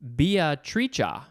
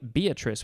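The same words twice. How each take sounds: First: The name is pronounced the Italian way. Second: The name is pronounced the usual English way. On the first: "another way to pronounce the name Beatrice because this is an Italian word" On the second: "It's the name Beatrice with a capital B"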